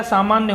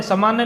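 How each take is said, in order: First: सामान्य with long first vowel, "saa-maanya"; correct form. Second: सामान्य with short first vowel, "sa-maanya"; wrong form. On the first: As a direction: say सामान्य as "saamaanya". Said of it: "सामान्य होता है". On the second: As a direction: say सामान्य as "samaanya". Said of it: "सामान्य नहीं होता है". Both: Shown as a demonstration.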